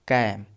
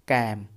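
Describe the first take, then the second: First: The vowel is an open 'a', like 'cam'. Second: The same.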